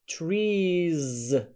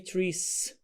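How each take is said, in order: First: The word ends in a buzzing z sound. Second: The word ends in a hissing s sound. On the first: The speaker calls it right. "then add voiced Z" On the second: The speaker calls it wrong. "Most of the students say"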